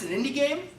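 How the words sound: It sounds surprised and impressed. The game seems too polished to be small-studio work. The speaker calls it right. "I want people to look at it and be so surprised"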